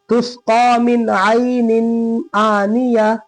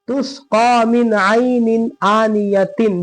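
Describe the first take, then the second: First: The last word ends softly with an h sound. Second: The last word ends with a t sound and -in. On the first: The reader stops at this word. "रुकेंगे तो हा" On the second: The reader joins it to the next word. "मिलाएंगे तो ता"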